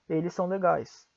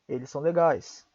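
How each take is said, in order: First: The words run together, the two s sounds joined. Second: The same.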